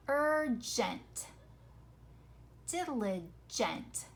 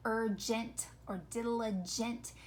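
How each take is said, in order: First: URGENT, DILIGENT drawn out so the E before NT is heard; careful enunciation. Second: URGENT, DILIGENT run together, last E like a short I; everyday quick pronunciation. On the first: Teacher shows the E is not silent, careful enunciation. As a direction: say urgent, diligent slowly, syllable by syllable. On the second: Teacher shows how we say these words, everyday pronunciation. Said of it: "we say it so quickly". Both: Shown as a demonstration.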